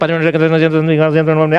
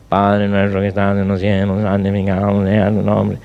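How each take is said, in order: First: The prayer is rattled off quickly. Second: The prayer is said at a slower pace. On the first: The prayer has become a tedious routine. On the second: The prayer is still fresh.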